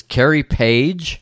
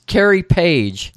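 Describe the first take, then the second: First: "Carrie Page?" slowly, rising at the end; questioning repeat. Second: Higher, slow answer as the woman; woman stating name. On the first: Man repeats name as question. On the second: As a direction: give the name plainly in a raised voice. Woman states her name. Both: Retold or imitated.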